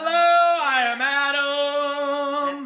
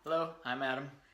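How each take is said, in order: First: The greeting sounds lively and enthusiastic. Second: The greeting sounds flat and unenthusiastic.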